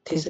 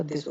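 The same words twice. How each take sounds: First: "थिस" with aspirated th; wrong th sound. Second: "दिस" starting with soft dental d; correct d sound. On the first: Teacher showing the mistake in this, th mispronunciation. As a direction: say "थिस" starting with breathy t-h. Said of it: "थिस नहीं होगा". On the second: Teacher giving the right this, dental-d pronunciation. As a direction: say "दिस", voiced d for th. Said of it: "दिस होगा". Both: Shown as a demonstration.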